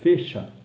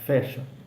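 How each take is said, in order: First: The e vowel is closed. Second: The e vowel is open. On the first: The speaker calls it wrong. "Dificilmente você fala fecha a porta" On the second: The speaker calls it right. "você fala fecha"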